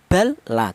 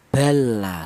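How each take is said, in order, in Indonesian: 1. L yang pertama diucapkan jelas dan terpisah. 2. L yang pertama menyatu menjadi satu L ganda. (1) "idhar itu artinya jelas, tidak boleh dibaca seperti ini" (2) "langsung menyatu atau bergabung langsung ke huruf lam yang nomor dua"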